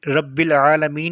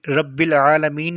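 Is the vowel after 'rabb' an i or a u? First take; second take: i; i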